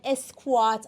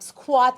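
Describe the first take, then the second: First: An extra vowel is added before the s. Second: It starts directly with the s cluster. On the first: The speaker calls it wrong. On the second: The speaker calls it right.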